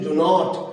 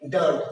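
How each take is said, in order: First: It is said as two full separate words. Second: It is said as one short contracted word. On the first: "শব্দটি ডু নট" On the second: "দ্রুততার সাথে করার জন্য ডু নট না বলে কি বলছি?"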